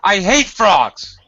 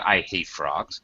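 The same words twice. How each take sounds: First: It is said with high pitch and strong emphasis. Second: It is said flatly with little emphasis. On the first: The speaker calls it right. "higher intonation and great emphasis" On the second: The speaker calls it wrong. "No, not I hate frogs"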